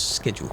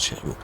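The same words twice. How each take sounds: First: It begins with a 'sk' sound, like 'school'. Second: It begins with a sound unlike 'school'. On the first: The speaker calls it right. "I say it's schedule because it's like school" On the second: The speaker calls it wrong. "not schedule"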